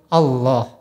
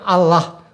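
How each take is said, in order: First: The L is thick and heavy, velarized. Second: The L is thin and light, unvelarized. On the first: This is how Muslims say the word. The speaker calls it right. "kita orang Islam mengucapnya dengan tabkhim" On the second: This is how Christians say the word. The speaker calls it wrong. "orang Kristen mengucapnya dengan tarkik"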